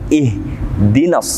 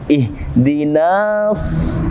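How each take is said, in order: First: The vowel before the s is kept short. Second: The vowel before the s is drawn out. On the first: The speaker calls it right. "Namun ihdinas sirata, langsung masuk" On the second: The speaker calls it wrong. "Tidak dibaca dua harokat seperti ihdinas, tidak"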